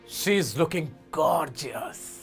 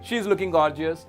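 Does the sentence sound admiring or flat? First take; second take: admiring; flat. First: It is said warmly with strong stress on gorgeous. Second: It is read flatly with no special feeling. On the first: The speaker calls it right. "Gorgeous पे stress दिया" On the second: The speaker calls it wrong. "इनको पहले normally पढ़ते हैं"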